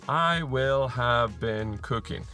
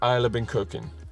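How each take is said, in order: First: Every word is said fully and separately. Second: The first two words merge into one short syllable.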